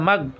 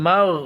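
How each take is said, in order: First: The final sound is cut off quickly. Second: The final sound is held and drawn out. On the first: The speaker calls it wrong. "মাগ এভাবে বলা যাবে না" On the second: The speaker calls it right. "একটু টেনে ধরতে হবে, মাগ এইভাবে"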